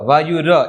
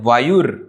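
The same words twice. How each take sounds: First: The word ends with a full 'ra' syllable. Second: The word ends with a bare 'r' sound. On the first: The speaker calls it wrong. "વાયુર એમ નથી બોલવાનું" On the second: The speaker calls it right. "ર અડધો છે એટલે વાયુર"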